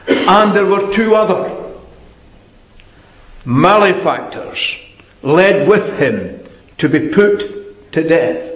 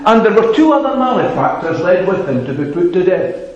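First: A pause falls between 'other' and 'malefactors'. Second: No pause falls between 'other' and 'malefactors'.

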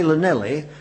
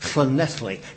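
First: The name is said in an anglicised way. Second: The name is said in a Welsh way. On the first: The speaker calls it wrong. "Don't say Llanelli" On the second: The speaker calls it right. "Church of Ethley, it means"

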